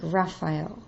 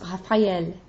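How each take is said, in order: First: The middle vowels glide together into one sound. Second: The middle vowels are pronounced as separate sounds. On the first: The speaker calls it wrong. "kind of slide into like Raphael" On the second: The speaker calls it right. "It's Raphael"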